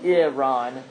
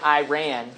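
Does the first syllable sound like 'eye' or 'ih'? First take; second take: ih; eye. First: The first syllable sounds like 'ih', not 'eye'. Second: The first syllable sounds like 'eye'. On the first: This is how it is said in the Middle East. The speaker calls it right. "the correct pronunciation in the context uh, of the Middle East is Iran, like the I, Iran, not I" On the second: This is how many Americans say it. The speaker calls it wrong. "people in the American culture... they pronounce it Iran"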